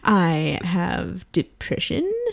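It is said in a light, joking voice. The speaker wants to lighten the mood.

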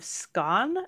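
The word is said with a British pronunciation. "the British pronunciation is more Stone of Scone"

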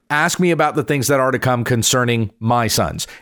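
The word 'sons' is stressed.

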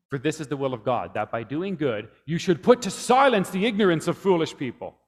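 The word silence carries the main stress.

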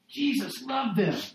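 It is said with strong, emphatic exclamation. It holds true in spite of everything they did. "with an exclamation mark"

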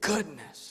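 It is said with little feeling. The kids are copying a habit. "They don't say it with great passion"

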